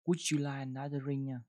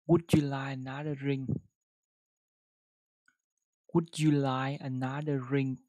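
First: Said in the usual way. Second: Careful model sentence; louder slow reading. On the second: Shown as a demonstration. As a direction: read Would you like another drink louder and slower. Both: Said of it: "đọc một câu với nó".

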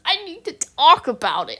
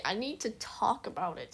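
First: Louder, higher burst of urgency; emphatic outburst. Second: Softer, drawn-in echo of the line; quiet repeat. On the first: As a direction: blurt it out, louder. Repeats the line, first loud. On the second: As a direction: say it again to yourself, softer. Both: Real, not acted.

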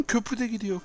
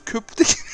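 First: Panicked. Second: Cracking up in high-pitched disbelief; laughing. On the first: Bridge collapsing too. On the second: Gamer watching his bridge wash away, laughing helplessly. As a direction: laugh through the words, helpless. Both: Real, not acted.

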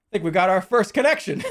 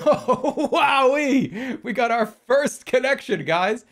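First: Louder, higher, breaking into a laugh; pleased announcement. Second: Loud, high, over-the-top celebration; hammed-up glee, drawing out the words; mock excitement. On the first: Real, not acted. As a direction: announce a small win through a laugh. Celebrates first puzzle pieces joined. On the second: Mockingly celebrates a trivial first connection.

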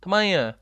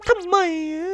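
First: Said in the usual way. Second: Much higher, squeaky cartoon whine. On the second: Gamer echoes his question as a squeaky cartoon critter.

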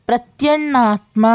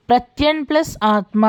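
First: ప్రత్యన్నాత్మ joined slowly, with a held double n; doubled n sandhi. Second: Said in the usual way. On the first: Shown as a demonstration. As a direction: run ప్రత్యన్నాత్మ together as one word, doubling the n.

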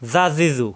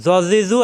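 First: "জা জি জু" with a light, thin consonant; tongue tip at the teeth, "জা জি জু" kept light; thin sound. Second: "জ জি জু" with a heavy, thick consonant; tongue tip at the teeth, "জ জি জু" said full and heavy; thick sound. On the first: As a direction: make "জা জি জু" thin and open. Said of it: "পাতলা হবে". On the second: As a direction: make "জ জি জু" thick, not an open "জা". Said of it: "এখানে মোটা হবে". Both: Shown as a demonstration.

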